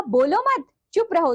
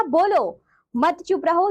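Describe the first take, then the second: First: "बोलो मत" run together with a falling मत, then "चुप रहो"; pause after मत. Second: "बोलो" drawn out and rising, pause, then "मत चुप रहो" together; pause after बोलो. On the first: Teacher giving children the second comma reading, pause after "बोलो मत". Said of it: "दूसरा कहा". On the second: Teacher contrasting comma places for children, slow pause after "बोलो". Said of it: "अल्प विराम का स्थान बदल जाने". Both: Shown as a demonstration.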